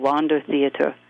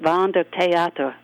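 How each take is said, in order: First: It is said with an American English pronunciation. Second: It is said with a German pronunciation. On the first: "here in America, I believe you say" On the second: "In German, we pronounced it"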